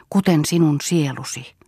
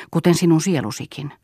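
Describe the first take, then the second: First: "Kuten sinun sielusi" drawn out more slowly; slower repeat. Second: Said in the usual way. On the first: A narrator's reading. Painter repeats his reproach to the girl, more slowly. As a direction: linger over each word of "Kuten sinun sielusi". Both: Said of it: "toisti hän hitaammin".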